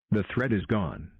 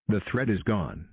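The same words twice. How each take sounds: The two takes are said the same way.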